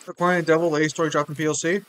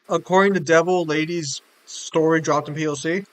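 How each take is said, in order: First: It is said at normal speed. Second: It is said more slowly.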